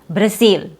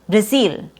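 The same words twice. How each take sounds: First: The second vowel is tense, like long E. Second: The same.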